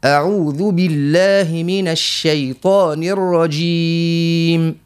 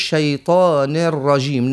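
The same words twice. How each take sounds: First: الشيطان الرجيم with full final kasras, slow; correct vowels. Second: الشيطان الرجيم with the final kasras clipped off; wrong vowels. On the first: Teacher gives the correct recitation, slow and full. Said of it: "لا، لا". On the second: Teacher shows the mistake, vowels cut short. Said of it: "ما نقولوش". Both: Shown as a demonstration.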